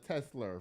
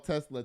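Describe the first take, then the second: First: The name is said with an altered pronunciation. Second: The name is said in its standard pronunciation.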